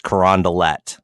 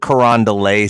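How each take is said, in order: First: The name is said the local way. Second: The name is said the outsider way. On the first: This is how locals say it. The speaker calls it right. "it's Carondelet down there" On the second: This is how visitors would say it. The speaker calls it wrong. "It's not Carondelet Street"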